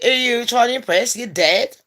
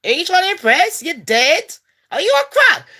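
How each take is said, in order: First: Said in the usual way. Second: Higher, pushier taunt; squeaky rising jeer at a ghost; mocking taunt. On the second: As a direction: get in the ghost's face and mock her. Taunting ghost girls, repeated.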